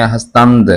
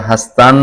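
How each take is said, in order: First: हस्तंद with the final d sounded; original full pronunciation. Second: हस्तन with the final d dropped; colloquial pronunciation. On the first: Teacher showing the original form, full pronunciation. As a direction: end हस्तंद clearly on nd. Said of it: "जो असल में हस्तंद". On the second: Teacher showing the spoken form, colloquial pronunciation. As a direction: say हस्तन ending on n, as in spoken Persian. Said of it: "बोलचाल में आता है". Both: Shown as a demonstration.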